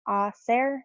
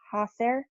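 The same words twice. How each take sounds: First: The word starts without an h sound. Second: The word starts with an h sound. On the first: The speaker calls it right. "you don't pronounce the H, so it's hacer" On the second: The speaker calls it wrong. "not hacer"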